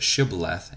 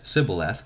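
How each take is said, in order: First: The word begins with an SH sound. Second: The word begins with a plain S sound. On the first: The speaker is not an Ephraimite. The speaker calls it right. "they could not pronounce it Shibboleth" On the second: The speaker is an Ephraimite. The speaker calls it wrong. "pronouncing it with the S instead of the SH sound as Sibboleth"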